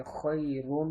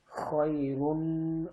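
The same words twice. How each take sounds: First: خیرن with the رن hummed through the nose; nasalized ra. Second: Said in the usual way. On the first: Shown as a demonstration. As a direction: let the ن of خیرن ring nasally. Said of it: "را کے اوپر غنہ کر دیا". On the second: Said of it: "simple پڑھنا ہے".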